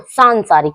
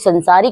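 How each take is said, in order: First: The first syllable has a long vowel. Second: The first syllable has a short vowel. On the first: The speaker calls it right. "क्या बनती है बच्चों? सांसारिक" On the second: The speaker calls it wrong. "शुद्ध वर्तनी संसारिक नहीं"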